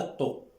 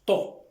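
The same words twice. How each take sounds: First: "to" said lightly, with a single consonant; a light, unstressed "to"; without shadda. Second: "to" with a doubled, forceful consonant; with shadda. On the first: Teacher showing what not to say, a light "to". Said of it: "On dit pas to". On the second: Teacher correcting to the shadda form, a forceful "to". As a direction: hit the start of "to" hard. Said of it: "mais on dit". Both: Shown as a demonstration.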